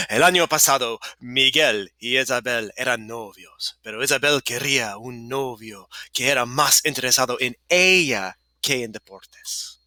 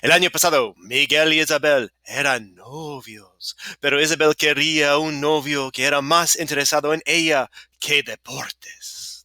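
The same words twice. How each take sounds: First: Slightly more measured Spanish; a little slower. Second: A touch of excitement in the Spanish; getting excited. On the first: Shown as a demonstration. Teacher rereading the story for students, a little slower. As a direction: ease back a touch, spacing the phrases. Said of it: "And a little slower". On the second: Real, not acted. Teacher reading a story to students, getting a little excited. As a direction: read the story with mild, rising enthusiasm. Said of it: "'cause I'm getting excited now".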